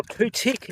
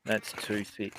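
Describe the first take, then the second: First: Irish "too thick" with a hard t for the th, said "tick"; Irish accent. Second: Said in the usual way. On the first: Shown as a demonstration. Streamer joking to chat with an Irish "too thick". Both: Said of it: "as they say in Ireland".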